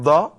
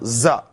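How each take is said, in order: First: The letter begins with a d sound. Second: The letter begins with a z sound. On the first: The speaker calls it wrong. "It became Da. No" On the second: The speaker calls it right. "No, Za"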